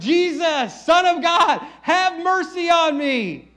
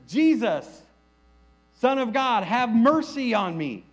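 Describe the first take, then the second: First: It is yelled loudly. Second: It is said at normal volume.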